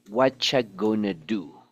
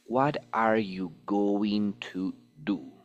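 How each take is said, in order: First: It is said fast, with reduced words. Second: It is said slowly, with every word full.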